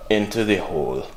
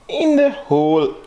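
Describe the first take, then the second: First: Said in the usual way. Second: High, drawn-out "In the hole"; playful high echo. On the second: Pretend. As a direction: stretch "In the hole" out, high and held. Playful repeat of the phrase.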